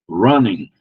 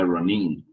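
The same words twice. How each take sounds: First: The first syllable carries the stress. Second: The -ing ending carries the stress. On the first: The speaker calls it right. "a sílaba antes do ing é mais forte" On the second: The speaker calls it wrong. "não é running"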